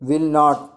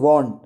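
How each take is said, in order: First: It is said as two full words. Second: It is contracted into one syllable. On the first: "विल नॉट को" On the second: "बोल सकते हैं वॉन्ट"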